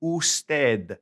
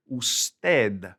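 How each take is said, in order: First: Usted repeated oos-TED, stress falling on ted; Spanish usted repeated. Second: Usted said oos-TED, stress on the end; Spanish usted. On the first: Teacher repeating the word for students. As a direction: say usted again, clearly. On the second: Teacher modelling the respectful word for you. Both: Shown as a demonstration. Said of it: "is this word right here".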